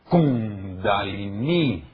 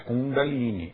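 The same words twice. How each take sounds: First: The stress falls on the first syllable. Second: The stress falls on a later syllable. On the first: The speaker calls it right. "A última é longa e a primeira é tônica" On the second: The speaker calls it wrong. "Não é Kundalini"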